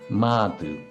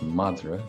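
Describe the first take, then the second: First: The middle consonant is dropped entirely. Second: The middle consonant is an r sound. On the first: "they'll pronounce it something like Madu" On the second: "The word for dog is madra"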